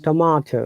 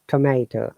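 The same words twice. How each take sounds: First: It is said in a British accent. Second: It is said in an American accent. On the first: "That's why we say"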